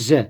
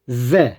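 First: The z is a plain buzzing sound. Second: The z is lisped, like voiced th. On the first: "Ben peltek yapmadan çıkarıyorum" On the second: "Peltek haliyle söyleyecek olursak"

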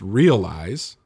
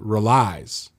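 First: The first syllable sounds like 'real'. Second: The first syllable is a short plain 're'. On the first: The speaker calls it right. "The word is realize" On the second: The speaker calls it wrong. "the guy pronounces it relies"

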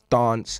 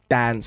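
First: It is said with a British accent. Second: It is said with an American accent.

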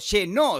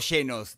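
First: The stress is on the last syllable. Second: The stress is on the first syllable. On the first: "metió el acento en la O" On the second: "no dijo llenos"

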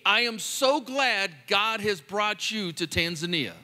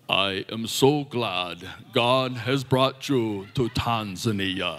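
First: It is said in a natural speaking voice. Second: It is said in a deep, put-on voice. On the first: The speaker calls it wrong. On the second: The speaker calls it right.

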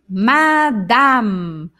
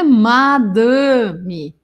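First: The vowel sound is wide open. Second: The vowel sound is closed. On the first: The speaker calls it right. "ele não fica fechado, ele é bem aberto" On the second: The speaker calls it wrong. "não é madame"

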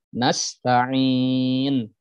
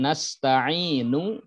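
First: The word ends on a consonant, vowel dropped. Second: The word ends with a short final vowel. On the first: The reader stops at this word. "ketika waqaf dibaca nasta'in" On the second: The reader continues without stopping.

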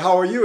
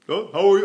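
First: The voice sounds relaxed, open and natural. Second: The voice sounds lifted, nasal and artificial. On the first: The speaker calls it right. "I don't have to talk in my nose" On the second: The speaker calls it wrong. "Now my pronunciation's all artificial"

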